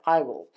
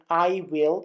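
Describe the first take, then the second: First: The words are joined into one short syllable. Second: Both words are said fully and separately. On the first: "you can say" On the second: "instead of saying"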